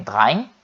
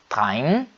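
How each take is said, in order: First: Said in the usual way. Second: "train" closing on a pressed, lengthened N; forced final N. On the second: Shown as a demonstration. Teacher showing learners the definite form, "train" with forced final N. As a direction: push the N at the end of "train". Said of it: "forçando o N".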